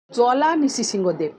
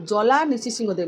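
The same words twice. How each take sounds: First: Slow name recital. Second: Said in the usual way. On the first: Shown as a demonstration. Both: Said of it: "তার জন্য ভগবানের নাম হচ্ছে".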